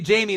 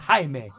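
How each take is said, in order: First: The name is said the English way. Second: The name is said the Spanish way. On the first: The speaker calls it wrong. "if I say Jamie, they'll be like, it's not Jamie, dummy" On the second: The speaker calls it right. "It's Jaime, right? ... From Mexican descent"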